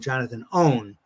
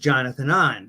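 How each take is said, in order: First: The surname is said like the word 'own'. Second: The surname is said like the word 'on'. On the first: The speaker calls it wrong. "I've heard that mispronounced on the Marvel uh, cartoon shows" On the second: The speaker calls it right. "it was Jonathan On"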